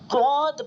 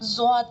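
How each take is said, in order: First: The letter begins with a heavy d-like sound. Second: The letter begins with a buzzing z-like sound. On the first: This is how Arabs and reciters read it. "अहले अरब इसको डॉद पढ़ते हैं" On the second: This is how people of the subcontinent read it. "बर्रे सगीर वाले सब इसको ज़्वाद पढ़ते हैं"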